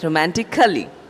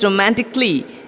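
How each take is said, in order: First: The vowel after the C is sounded. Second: The vowel after the C is silent. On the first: The speaker calls it wrong. "people often mispronounce the word as Cully" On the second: The speaker calls it right. "The A after the C is silent"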